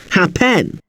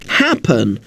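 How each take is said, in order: First: Hap-PEN, stress moved onto the second syllable; wrong second-syllable stress. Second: HAP-pen, first syllable stressed. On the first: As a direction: punch the "pen" in "happen" with a full vowel. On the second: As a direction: hit the "hap" in "happen", let the ending go weak. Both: Shown as a demonstration. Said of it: "stress is on the first part".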